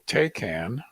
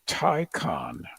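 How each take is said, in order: First: The first syllable sounds like 'tay'. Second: The first syllable sounds like 'tie'. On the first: This is how it has usually been said. The speaker calls it wrong. "which we've always called the Taycan" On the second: This is the official pronunciation. The speaker calls it right. "It's actually called the Taycan, like Ticonderoga"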